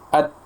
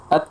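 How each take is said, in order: First: The final t is held, then released with light breath. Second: The final t is released with a hissing s-like sound. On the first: The speaker calls it right. "hamznya secukupnya dan domin, dominankan uh, sifat syiddahnya" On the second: The speaker calls it wrong. "ada bunyi desis ya. Sofir ya. ... itu salah"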